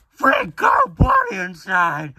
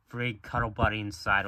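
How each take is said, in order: First: Loud, high-pitched squealed slogan; shouted box slogan. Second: Said in the usual way. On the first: Acted. Cereal box announcing a free toy, high shout. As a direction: shout it like an overexcited toy advert. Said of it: "The box said". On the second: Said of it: "I don't know why it just said".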